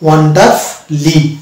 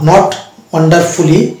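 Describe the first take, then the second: First: The 'ful' syllable's vowel is dropped. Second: The 'ful' syllable keeps a full 'u' vowel. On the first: The speaker calls it right. "but it will be wonderfully" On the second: The speaker calls it wrong.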